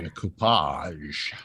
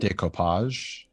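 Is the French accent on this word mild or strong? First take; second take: strong; mild. First: It is said with an exaggerated French accent. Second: It is said with a mild French accent. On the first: "Give me more of that, but more" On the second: "like with a French accent"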